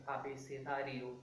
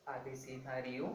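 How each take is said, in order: Both takes have the same delivery.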